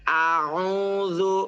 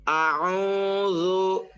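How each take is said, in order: The two takes are said the same way.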